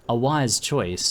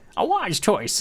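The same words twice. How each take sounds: First: It is said in the speaker's natural voice. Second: It is said in the goblin's put-on voice.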